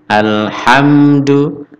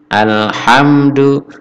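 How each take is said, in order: The two takes are said the same way.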